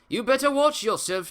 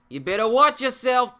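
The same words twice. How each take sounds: First: It is said without a New York accent. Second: It is said with a New York accent.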